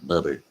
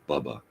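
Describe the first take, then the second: First: The name ends in an r-sound. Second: The name ends in a plain vowel. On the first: Only one character says the name this way. "except for Marlon Brando, who referred to him as Bubber" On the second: Most of the characters say the name this way. "Everybody else in the movie called this this Robert Redford character Bubba"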